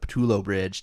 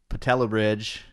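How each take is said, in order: First: The name ends with an 'oh' vowel sound. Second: The name ends with an 'ah' vowel sound.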